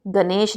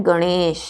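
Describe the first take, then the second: First: गणेश as "ga-nesh" with plain n; wrong dental न. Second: गणेश with curled-tongue ण, drawn out; retroflex ण. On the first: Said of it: "गणेश नहीं होता है". (गणेश को गनेश जैसा) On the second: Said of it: "क्या होता है". (गणेश में मूर्धन्य ण) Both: Shown as a demonstration.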